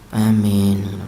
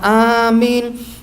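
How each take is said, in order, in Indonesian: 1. Diucapkan dengan lemas, kurang semangat. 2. Diucapkan dengan penuh semangat. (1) "tidak semangat ngomong amin ... Lemes" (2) "kancane bersemangat"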